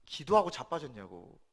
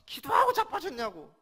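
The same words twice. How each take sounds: First: Said in the usual way. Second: "기도하고 자빠졌냐고" yelled much higher and louder, "기도하고" hit hard; a re-enacted teenage scream at mother; retold furious yell. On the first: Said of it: "과격하게 그때 표현했습니다". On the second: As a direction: shout it at mother in rage. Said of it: "어머님한테 소리 질렀습니다".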